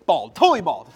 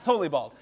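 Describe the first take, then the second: First: "totally bald" said louder, leaning on "totally"; loud comic emphasis on "totally bald"; emphatic. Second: Said in the usual way. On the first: Real, not acted. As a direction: punch "totally" for the joke. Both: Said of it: "he now is".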